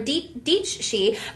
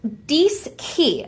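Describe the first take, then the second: First: The middle sound is ch. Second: The middle sound is sk. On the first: The speaker calls it wrong. "or Dichi" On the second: The speaker calls it right. "but it's actually pronounced Diski"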